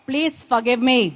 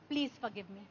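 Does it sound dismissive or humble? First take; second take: dismissive; humble. First: It is said in a careless, dismissive tone. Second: It is said in a soft, humble tone.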